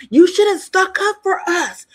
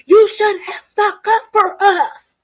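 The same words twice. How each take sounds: First: Higher and louder, accusing yell; angry outburst. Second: Slower, higher, louder tearful accusation; crying yell. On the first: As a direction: throw the blame at them at full volume. Angelina confronting the housemates. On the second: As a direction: wail it like she's breaking down. Repeated, crying, retold. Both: Retold or imitated.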